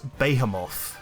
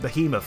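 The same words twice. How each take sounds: First: The last syllable sounds like the word moth. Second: The last syllable does not sound like moth. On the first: The speaker calls it wrong. "it's not a moth. That's not a moth" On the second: The speaker calls it right. "that sounds a lot better"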